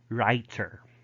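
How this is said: The middle T is clearly pronounced.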